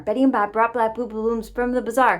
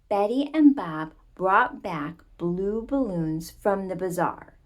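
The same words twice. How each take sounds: First: It is said at a fast, rushed pace. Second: It is said at a slower, careful pace.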